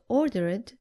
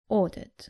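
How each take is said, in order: First: The ending is an extra 'id' syllable. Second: The ending adds no extra syllable. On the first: The speaker calls it wrong. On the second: The speaker calls it right.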